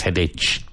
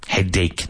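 First: Headache said with a ch at the end, hed-aitch; wrong pronunciation. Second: Headache said with a hard k at the end, hed-ake; correct pronunciation. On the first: Teacher showing students the wrong headache, ending in ch. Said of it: "not headache". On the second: Teacher modelling headache for students, with a final k. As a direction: say headache ending on a clean k sound. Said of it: "Headache, not headache". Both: Shown as a demonstration.

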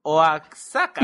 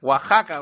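First: "Oaxaca" spelled out as "o-ak-SA-ka", the X said as KS, slowly; Oaxaca with a hard X. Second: "Oaxaca" pronounced "Wahaka"; Oaxaca said the Mexican way. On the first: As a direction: read "Oaxaca" letter by letter, X as KS, drawn out. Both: Shown as a demonstration. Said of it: "para mí la X se pronuncia X".

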